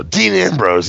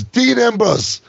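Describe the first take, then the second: First: Said in the usual way. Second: Little nephew echoing the name, much higher; imitating a toddler. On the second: Uncle imitating his little nephew repeating the wrestler's name. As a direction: pitch it up like a three-year-old repeating. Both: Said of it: "And he goes".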